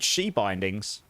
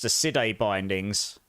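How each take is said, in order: First: The first word starts with an 'sh' sound. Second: The first word starts with an 's' sound. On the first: The speaker calls it right. "apparently it's meant to be called" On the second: The speaker calls it wrong. "just because that's how I read it"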